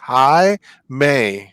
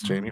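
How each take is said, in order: First: The name begins with an H sound. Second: The name begins with a J sound. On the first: This is how the owner of the name says it. The speaker calls it right. "Jaime is pronounced Hi May" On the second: This is how others misread the name. The speaker calls it wrong. "They'll be like"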